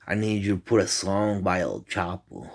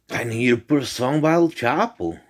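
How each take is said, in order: First: Said in the usual way. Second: Raised-voice repeat, pitched up; retold yelling. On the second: Repeating a song request to a girl who can't hear, mock yelling. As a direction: repeat it louder and higher, as if she didn't hear. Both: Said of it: "why you were yelling at me".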